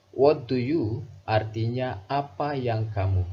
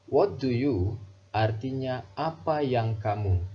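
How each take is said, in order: Both takes have the same delivery.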